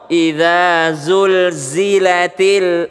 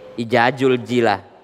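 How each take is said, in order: First: The consonants are said as z sounds. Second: The consonants are said as j sounds. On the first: The speaker calls it right. "karena dia za" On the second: The speaker calls it wrong. "diganti menjadi huruf J"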